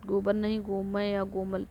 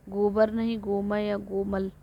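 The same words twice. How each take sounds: The two takes are said the same way.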